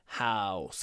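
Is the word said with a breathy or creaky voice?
creaky. The word is said with a creaky voice. "Or you can croak"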